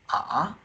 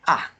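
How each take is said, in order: First: It moves upward from one pitch to another. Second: It falls from high to low, drawn out. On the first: "the second tone from here to here" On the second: "The fourth tone from high to low, very long"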